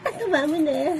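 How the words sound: It sounds playful and flirty.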